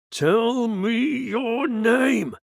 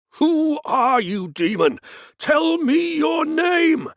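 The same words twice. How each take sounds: First: Very slow, high, loud command; exorcist's shout. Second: High, slow, loud command; exorcist's shout. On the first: Priest shouting at the possessed woman, slow roar. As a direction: stretch the demand out in a roar. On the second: Priest shouting demand for the demon's name, slow roar. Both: Acted.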